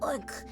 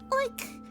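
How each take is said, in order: First: The oink is said in a deep, low voice. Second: The oink is said in a high-pitched voice. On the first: A boy pig makes this sound. "Boy pigs have have deeper oinks" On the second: A girl pig makes this sound. "higher pitch"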